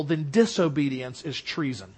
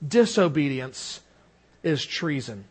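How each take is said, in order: First: Said in the usual way. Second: "Disobedience" set apart, pause before "is treason"; low, deliberate repeat; slow stress. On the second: Shown as a demonstration. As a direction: weigh each word, slowly.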